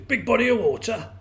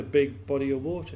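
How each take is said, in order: First: High, loud frog voice in disbelief; incredulous well frog. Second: Said in the usual way. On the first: A narrator's reading. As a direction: echo it as a scoffing, baffled frog.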